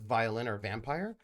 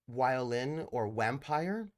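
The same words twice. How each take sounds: First: The words start with a V sound. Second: The words start with a W sound. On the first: A native English speaker said it. "as opposed to" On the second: A German speaker said it. "some of my German friends would say like"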